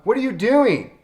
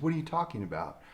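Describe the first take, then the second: First: High, loud heckler's holler; hollered question. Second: Soft, level answer to a heckler; calm reply. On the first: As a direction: shout it out from the audience in disbelief. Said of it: "somebody hollers out". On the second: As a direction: answer quietly, as if nothing is odd. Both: Retold or imitated.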